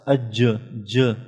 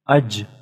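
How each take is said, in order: First: The final j ends with a short bounce. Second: The final j is cut off in a stop. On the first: "This j is due to the sifat qalqala" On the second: "Aj is due to the sukun or jazm"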